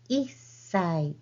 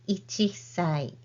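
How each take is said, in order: First: The number shortens into a doubled s sound. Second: The number keeps its full 'ichi' sound. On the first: The speaker calls it right. "One year old is いっさい" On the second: The speaker calls it wrong. "not いちさい"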